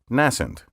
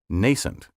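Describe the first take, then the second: First: The first vowel is a short A sound. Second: The first vowel is a long A sound.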